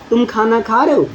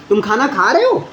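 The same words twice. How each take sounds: First: The voice stays level or falls at the end. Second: The voice rises at the end. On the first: It is a plain statement. "अगर मैं simple सा बोल रहा हूँ" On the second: It is asked as a question. "Tone rise कर दिया"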